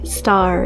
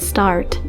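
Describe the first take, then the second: First: The final t sound is dropped. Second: The final t sound is clearly pronounced. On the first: The speaker calls it wrong. "I'm hearing things like" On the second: The speaker calls it right. "instead of"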